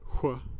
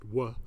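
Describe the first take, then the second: First: The sound is said in its older, fuller form. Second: The sound is said in its simpler, reduced form. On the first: This is an older way of saying it that most have lost. "I have one conservative feature you've probably lost. I say wh" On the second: This is how most people say it today. "which has become just wh for most people today"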